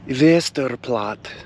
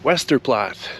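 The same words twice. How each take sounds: First: The name is said in a Polish-sounding way. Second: The name is said in a Western, anglicized way. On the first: The speaker calls it right. "I think it's that" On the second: The speaker calls it wrong. "like the Western people say"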